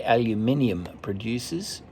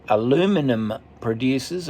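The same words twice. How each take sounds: First: Aluminium said al-yoo-MIN-ee-um, five syllables; Australian pronunciation. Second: Aluminum said a-LOO-mi-num, four syllables; American pronunciation. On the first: Reader correcting to what Australians say, aluminium as al-yoo-MIN-ee-um. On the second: Reader giving listeners the American word before the Australian one, aluminum as a-LOO-mi-num. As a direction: stress the second syllable of aluminum, American-style. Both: Shown as a demonstration. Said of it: "or as Australians say".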